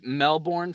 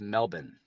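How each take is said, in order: First: It is said the American way, with the r. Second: It is said the Australian way, without the r. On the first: "It is Melbourne for Americans" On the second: "native Australians don't say ours, so it is Melbourne"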